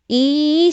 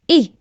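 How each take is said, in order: First: The vowel is long and stretched. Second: The vowel is short and quick. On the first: The speaker calls it right. "it's e sound" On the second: The speaker calls it wrong. "Not e"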